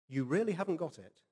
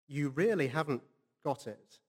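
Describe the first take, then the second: First: Said in the usual way. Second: "really" leaned on, with a pause before "got it". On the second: Pretend. [name]'s rebuke, said twice.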